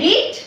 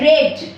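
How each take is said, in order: First: The vowel is long, like 'ee'. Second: The vowel is short, like 'e' in 'bed'. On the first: It is the present tense. "প্রেজেন্টে বলো V zero তে বলো তাহলে হচ্ছে রিড" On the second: It is the past tense. "Simple পাস্টে V two তে বলো উচ্চারণটা বলবে রেড"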